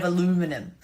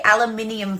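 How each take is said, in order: First: Aluminum said a-LOO-mi-num; American a-LOO-mi-num for aluminum; American pronunciation. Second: Aluminium said al-you-MIN-ee-um; Australian al-you-MIN-ee-um for aluminium; Australian pronunciation. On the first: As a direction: say aluminum with four syllables, stress on LU. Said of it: "as you guys say it". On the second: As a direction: say aluminium with five syllables, stress on MIN. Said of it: "I also say aluminium foil". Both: Shown as a demonstration.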